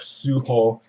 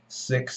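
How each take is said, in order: First: The name is said in a Japanese-style pronunciation. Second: The name is said in an English-style pronunciation.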